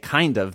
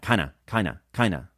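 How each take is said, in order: First: Both words are said fully and separately. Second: The words are blended quickly into one word. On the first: "native speakers almost never say kind of" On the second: "They say kinda. Really fast, like that"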